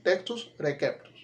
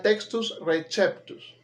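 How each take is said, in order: First: "receptus" with a hard K, "rekeptus"; correct Latin. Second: "receptus" with a CH sound, "rechéptus"; Italianized "textus receptus"; Italianized Latin. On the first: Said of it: "Lo correcto es textus receptus". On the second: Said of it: "es más italianizado". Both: Shown as a demonstration.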